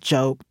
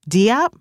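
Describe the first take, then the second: First: The name rhymes with hope. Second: The name does not rhyme with hope. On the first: The speaker calls it right. "it's pronounced Jope, as in rhymes with hope" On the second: The speaker calls it wrong. "incorrect variations"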